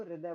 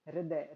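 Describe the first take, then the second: First: हृदय said as "hriday", r straight into the vowel; हृदय pronounced "hriday", the right way; correct pronunciation. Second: हृदय said wrongly as "heridaye", with an extra vowel after h; हृदय pronounced "heridaye", the mistake to avoid; wrong pronunciation. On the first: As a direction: say हृदय properly as "hri-day". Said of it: "इसको हृदय बोलते हैं". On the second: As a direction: mispronounce हृदय as "he-ri-daye". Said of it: "इसको हृदय नहीं बोलते". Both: Shown as a demonstration.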